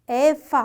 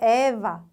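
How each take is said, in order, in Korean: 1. 가운데 자음은 무성 F 소리입니다. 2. 가운데 자음은 유성 V 소리입니다.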